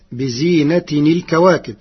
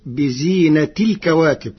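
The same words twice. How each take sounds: First: بزينة as "bi-zīnatin", linked by "-ni" to الكواكب; with tanwīn. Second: بزينة as "bi-zīnati", no n before الكواكب; without tanwīn. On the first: Teacher quotes the verse before Warsh's reading, بزينة with tanwīn. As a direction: sound the n after بزينة. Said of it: "كلمة بزينة بدون تنوين". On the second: Teacher shows Warsh's resulting reading, بزينة without tanwīn. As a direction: glide "-ti" of بزينة straight into الكواكب. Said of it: "بدون تنوين". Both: Shown as a demonstration.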